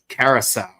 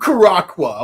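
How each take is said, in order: First: The word is said like 'Curacao'. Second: The word is said like 'Caraqua'. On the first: The speaker calls it right. "bruh, it's Carousel" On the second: The speaker calls it wrong. "they completely did not pronounce the name of the product correctly"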